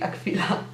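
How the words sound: The word is said with a Polish pronunciation.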